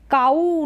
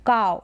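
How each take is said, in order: First: काऊ as "kaa-oo"; काऊ with a separate long oo; wrong two syllables. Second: काऊ as one-syllable "cow"; काऊ said like English "cow"; ow diphthong. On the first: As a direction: stretch the final oo of काऊ. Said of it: "काऊ नहीं बोलेंगे". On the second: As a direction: glide काऊ into a single "ow". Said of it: "इसको आओ करके pronounce". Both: Shown as a demonstration.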